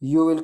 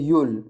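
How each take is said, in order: First: It is said as two full words. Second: It is contracted into one syllable. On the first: "यू विल की जगह" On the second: "इस्तेमाल कर सकते हैं यूल"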